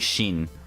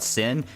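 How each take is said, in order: First: The word begins with a sh sound. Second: The word begins with an s sound. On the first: The speaker calls it right. "it's actually Shin" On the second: The speaker calls it wrong. "they call it Sin"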